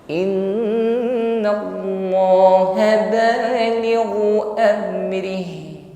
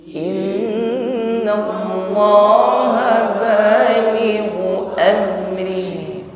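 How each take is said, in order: No difference in how they are said.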